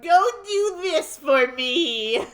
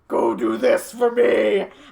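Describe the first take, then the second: First: It is said in an ordinary, non-demonic voice. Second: It is said in a demonic voice, like Von Karma.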